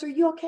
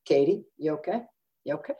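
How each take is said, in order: First: High-pitched worried check; urgent, high questioning; alarmed concern. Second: Gentle concern. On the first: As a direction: imitate a startled doctor asking after a patient. Doctor checks on upset patient. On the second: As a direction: imitate a doctor carefully asking after a patient. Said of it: "the doctor goes like this". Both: Retold or imitated.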